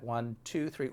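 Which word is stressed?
two. The stress is on two.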